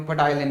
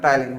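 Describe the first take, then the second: First: पटाइलिन with the initial P sounded; mispronounced with P. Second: टाइलिन starting straight on T; silent P. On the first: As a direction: say पटाइलिन, voicing a P before the T. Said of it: "लेकिन वो पटाइलिन नहीं होता". (पटाइलिन में शुरू का प बोलकर गलत उच्चारण) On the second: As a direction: say टाइलिन with no P sound at the front. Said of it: "टाइलिन होता है". (टाइलिन, शुरू में प चुप, ट से उच्चारण) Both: Shown as a demonstration.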